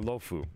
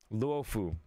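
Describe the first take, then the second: First: No 'u' sound is heard in the first syllable. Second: A 'u' sound is heard in the first syllable. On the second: "I always pronounce the U"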